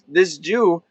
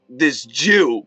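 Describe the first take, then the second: First: It is said with a neutral tone. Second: It is said with a contemptuous tone.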